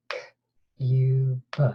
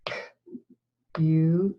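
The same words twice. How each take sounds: First: K-U-B whispered, each sound split apart. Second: K-U-B, each sound split apart in a plain voice; sounding out words. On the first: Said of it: "Let's do it again". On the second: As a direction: segment cube into K, U, B aloud. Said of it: "Let's sound out the word cube". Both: Shown as a demonstration.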